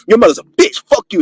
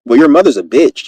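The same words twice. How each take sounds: First: High-pitched aggressive insult; aggressive cussing. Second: Mild, peaceful delivery of an insult. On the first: Showing the blunt way to confront someone, aggressively. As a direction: come at them cussing, pitch jumping up. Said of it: "if you came up to them and be like". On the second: Showing how to say something slick, peacefully. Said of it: "say it in a peaceful way". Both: Acted.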